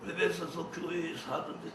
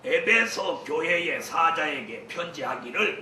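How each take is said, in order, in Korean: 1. 말이 뭉개져서 알아듣기 어려워요. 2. 한 음절 한 음절이 분명하고 또박또박 발음돼요. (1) "진짜 양천자 알아들어요? 못 알아들어요?" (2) "또박또박 읽어야 해요"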